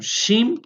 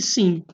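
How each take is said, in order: First: The word begins with an sh sound. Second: The word begins with an s sound. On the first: The letter has a dot on the right. "ela tem som de S H" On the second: The letter has a dot on the left. "ela tem um som de S"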